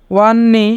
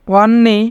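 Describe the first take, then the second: No difference in how they are said.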